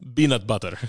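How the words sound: The first word starts with a B sound.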